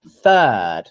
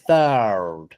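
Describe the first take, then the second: First: The th runs straight into the vowel. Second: An extra er vowel follows the th sound. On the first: The speaker calls it right. "there is no er sound in this word" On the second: The speaker calls it wrong. "don't do this"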